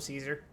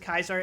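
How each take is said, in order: First: The name begins with a soft S sound. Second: The name begins with a hard K sound. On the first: The speaker is not region affiliated in the game. "when I'm not, I just go Caesar" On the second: The speaker is region affiliated in the game. "pronounce it as Kaiser every time I'm region affiliated"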